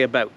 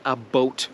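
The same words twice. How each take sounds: First: "about" said as one ordinary word; "about", plain Canadian, one word; how Canadians say it. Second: "a boat" said as two clear words, a boat; "a boat", the wrong way Americans think Canadians say it. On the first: Correcting Americans on Canadian speech: "about" said normally. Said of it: "we say". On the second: Correcting Americans on Canadian speech: "a boat" as two words. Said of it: "We don't say". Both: Shown as a demonstration.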